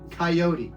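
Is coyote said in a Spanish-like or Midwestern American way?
Midwestern American. Coyote is said with a Midwestern American pronunciation. The speaker calls it right. "I'm from Indiana"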